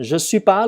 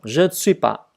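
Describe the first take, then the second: First: The word ne is dropped entirely. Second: All four words are said, including ne. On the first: This is how it is said in normal speech. "N không đọc luôn. Bỏ chữ N luôn" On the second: This is the careful form for study. "Đọc từ từ rõ ra"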